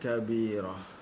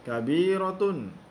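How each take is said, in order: First: The word ends with a soft h sound. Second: The word ends with a t sound and vowel. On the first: The reader stops on this word. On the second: The word is read in full without stopping.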